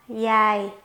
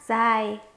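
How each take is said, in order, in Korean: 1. 남부 베트남식 억양으로 발음됩니다. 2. 북부 베트남식 억양으로 발음됩니다. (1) "남부식 발음 시작해 보도록 할게요" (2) "북부 중심 발음 방식은 여기까지고요"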